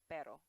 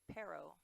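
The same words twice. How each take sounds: First: Pero with a light tapped R like English ladder; pero, R as a quick flap; Spanish tapped R. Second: Pero with an English R; wrong pero. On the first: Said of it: "you say pero". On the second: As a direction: pero said with an American R. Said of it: "You don't say pero". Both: Shown as a demonstration.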